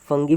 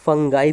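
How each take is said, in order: First: It has a hard g and ends in 'ee'. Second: It has a hard g and ends in 'eye'. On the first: "फंगी भी बोल सकते हैं" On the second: "फंगाई भी बोल सकते हैं"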